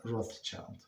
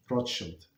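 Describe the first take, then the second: First: Put-on "Rothschild" said as ROTHS-child; English pronunciation. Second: "Rothschild" said ROT-shilt; European pronunciation. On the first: Teacher showing the name to avoid, English pronunciation. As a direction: say "Rothschild" slowly, ending like the English word child. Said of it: "not, not in English". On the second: Teacher showing listeners the European name, European pronunciation. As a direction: say "Rothschild" the Yiddish way, ending in a short shilt. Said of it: "that's how they pronounce". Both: Shown as a demonstration.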